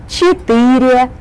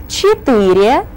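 Both takes have the same delivery.

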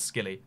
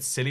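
First: The word begins with an SK sound. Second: The word begins with a plain S sound. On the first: The speaker calls it right. "but it's Skilly" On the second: The speaker calls it wrong. "It looks like it should be said Silly Isles"

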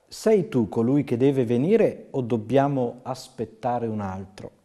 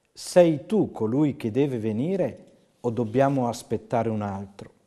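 Both takes have the same delivery.

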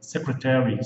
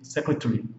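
First: It is said with the general American pronunciation. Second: It is said with a non-American pronunciation. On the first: This form is the general one in the United States. "Mas nos Estados Unidos, de forma geral, é secretary" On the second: This form is heard in some other places. "Em alguns lugares vocês vão escutar secretary"

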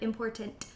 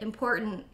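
First: The middle t sound is fully pronounced. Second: The middle t sound is dropped. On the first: "instead of important" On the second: "We always skip a consonant"

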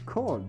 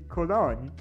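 First: The name is said with a German pronunciation. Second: The name is said with an English pronunciation. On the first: "If you're German, you pronounce it" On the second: "if you're not German, you pronounce it"

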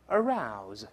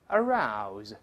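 Both takes have the same delivery.

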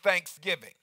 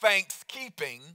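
First: The stress falls on the second part, giving. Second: The stress falls on the first part, thanks. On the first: Thanks must be combined with giving. "Could it be that it is really only authentic thanks when it's combined with giving?" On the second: It is only about being thankful. "It's not thanksgiving"

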